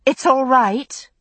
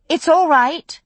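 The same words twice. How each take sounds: First: Slow, shaken reassurance from a stunned woman; steady them though you are reeling; slow, husky words, still in shock. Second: Louder, firm reassurance to a whole room; firm, loud call to the tavern; more firmly. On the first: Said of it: "voice husky with shock". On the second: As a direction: settle the crowd with authority. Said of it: "more firmly, to the room at large". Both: A narrator's reading.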